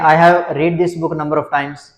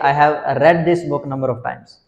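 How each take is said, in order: First: 'Read' has a long vowel, like 'reed'. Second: 'Read' has a short vowel, like 'red'. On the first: The speaker calls it wrong. "Students बोल देते हैं ... गलत है ना बिल्कुल" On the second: The speaker calls it right. "कैसे बोलना चाहिए?"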